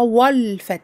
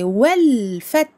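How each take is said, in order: First: The opening 'wa' sounds heavy and emphatic. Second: The opening 'wa' sounds light and thin. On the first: The speaker calls it wrong. "Attention à ne pas l'emphatiser par contre... On ne dit pas wal fath" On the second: The speaker calls it right. "elle est noire ici... C'est wal fath"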